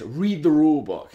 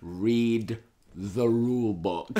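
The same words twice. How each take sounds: First: Imitated scolding, higher and louder; insistent rebuke. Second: Drawn out word by word; slow taunt. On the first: Rival manager orders him to check, insistent. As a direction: snap it out as a retold telling-off. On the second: Retold or imitated. Manager winding up his furious rival, slow and deliberate. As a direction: stretch every word to wind someone up. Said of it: "Like this".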